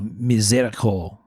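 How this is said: The word is said with a French pronunciation. "give my French pronunciation"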